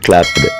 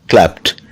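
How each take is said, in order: First: The ending is not a plain t sound. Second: The ending is a plain t sound. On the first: The speaker calls it wrong. "Not clapped" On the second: The speaker calls it right. "It must be pronounced clapped. T sound"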